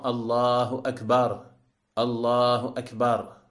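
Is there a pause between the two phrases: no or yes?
yes. A pause separates the two phrases. The speaker calls it wrong. "de séparer entre les deux takbirs, de laisser un temps d'arrêt"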